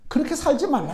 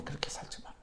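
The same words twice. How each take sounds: First: Said in the usual way. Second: Whispered echo of the warning. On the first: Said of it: "said, then whispered". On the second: Real, not acted. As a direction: drop to a whisper to drive it home. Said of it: "whispered repeat". (속삭이듯 다시 강조)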